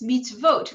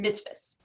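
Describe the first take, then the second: First: The word is said the Israeli Hebrew way. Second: The word is said the Yiddish-influenced way. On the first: "mitzvot rather than" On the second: "rather than mitzvahs"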